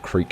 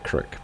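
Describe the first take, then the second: First: The vowel is a long ee sound. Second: The vowel is a short i sound.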